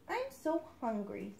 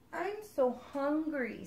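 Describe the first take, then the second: First: Soft little duckling; small hungry duckling, quiet; little duckling complaining softly. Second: Slow little duckling; small hungry duckling; higher duckling telling the frog it is hungry. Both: Acted. Duckling voiced in story.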